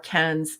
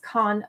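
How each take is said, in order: First: It is said with an American pronunciation. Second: It is said with a non-American pronunciation.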